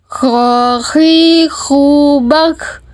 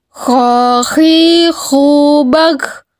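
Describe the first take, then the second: No difference in how they are said.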